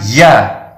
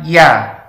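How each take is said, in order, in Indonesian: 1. Bunyinya berdesah, ada napas yang keluar. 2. Bunyinya jelas, tidak ada napas yang keluar. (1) "bukan ya" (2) "harus dibaca dengan jahar, dengan jelas"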